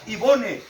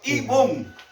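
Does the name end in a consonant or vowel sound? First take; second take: vowel; consonant. First: The name ends with a pronounced vowel sound. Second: The name ends with a consonant sound. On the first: The name is read exactly as it is written. The speaker calls it wrong. "no se pronuncia Ivone" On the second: The name is said the usual way, not as written. The speaker calls it right. "sino que se pronuncia Ivón"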